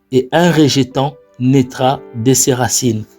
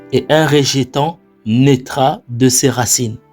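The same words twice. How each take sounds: No difference in how they are said.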